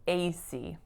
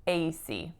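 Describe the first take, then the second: First: The stress is on the first syllable A. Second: The stress is on the first syllable A.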